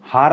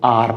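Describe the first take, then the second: First: The word begins with an h sound. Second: The word begins with a vowel sound. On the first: The speaker calls it wrong. "हार नहीं पढ़ेंगे इसको" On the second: The speaker calls it right. "आर पढ़ेंगे"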